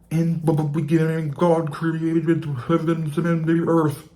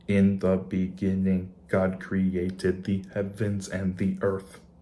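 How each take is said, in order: First: It is said in a bubbly underwater voice. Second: It is said in a flat robotic voice.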